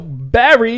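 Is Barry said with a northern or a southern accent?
northern. It is said with a northern US accent.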